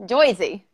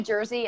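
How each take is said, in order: First: "Jersey" as a New Jersey "Joysey", with an oi vowel; Jersey accent. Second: Said in the usual way. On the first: Shown as a demonstration. Podcast host demos the word "Jersey" in a New Jersey accent. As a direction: say "Jersey" the New Jersey way, Joy-zee. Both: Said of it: "Can you say Jersey in a Jersey accent?".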